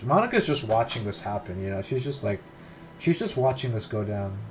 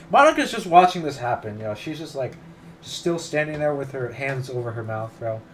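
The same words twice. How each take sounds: First: Said in the usual way. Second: Loud exasperated complaint. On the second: Real, not acted. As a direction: throw it up in frustration. Repeats complaint about Monika, louder.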